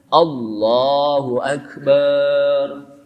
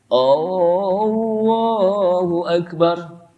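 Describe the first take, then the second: First: The final syllable bar is drawn out long. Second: The first vowel of Akbar is drawn out long. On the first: It makes the phrase mean Allah is a drum. "tidak boleh barnya dipanjangin" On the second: It turns the phrase into a question about Allah being great. "tidak boleh baca Allahu Akbar dengan A-nya panjang"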